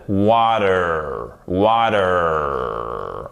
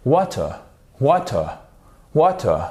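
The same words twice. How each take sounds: First: American "water", long heavy final R; nasal American accent. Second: Short British "water", crisp T, dropped R; British English. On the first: Teacher showing the strong American R, nasal American accent. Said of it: "qui a un accent nasal". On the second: Teacher showing British English, British accent on "water". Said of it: "c'est même du British English". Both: Shown as a demonstration.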